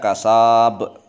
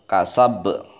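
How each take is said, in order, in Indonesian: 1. Vokalnya dibaca panjang. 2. Vokalnya dibaca pendek. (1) "jangan panjang-panjang, kasab. Beda itu, salah" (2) "Tapi langsung wama kasab"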